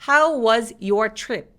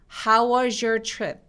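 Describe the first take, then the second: First: The words 'was' and 'your' are said separately. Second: The words 'was' and 'your' are linked together. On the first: The speaker calls it wrong. "보다는" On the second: The speaker calls it right. "was your 이렇게 연결하게 됩니다"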